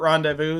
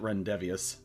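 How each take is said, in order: First: The word ends with a 'voo' sound. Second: The word ends with a 'vee-us' sound. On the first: The speaker calls it right. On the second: The speaker calls it wrong.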